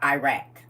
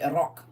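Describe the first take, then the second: First: It is said the way outsiders say it. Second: It is said the way Iraqis say it. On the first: The speaker calls it wrong. "not Iraq" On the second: The speaker calls it right. "people in Iraq still say that right now. They say Iraq"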